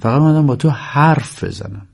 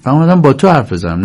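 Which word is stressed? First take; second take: حرف; تو. First: The stress falls on the word حرف. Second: The stress falls on the word تو. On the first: I came only to talk, not to see you. The speaker calls it right. "در واقع درستش اینه" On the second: I came to talk with you, not anyone else. The speaker calls it wrong. "ولی بازیگر جوری اجرا میکنه"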